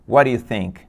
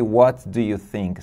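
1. As palavras se juntam em um único bloco. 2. Cada palavra é dita separadamente e com cuidado. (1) "Você vai ouvir" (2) "Você não vai ouvir"

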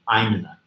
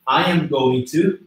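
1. As palavras são encurtadas e ditas juntas. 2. Cada palavra é dita completa e separadamente. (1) "transforma em I'm in a" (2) "a gente pega esse I am going to"

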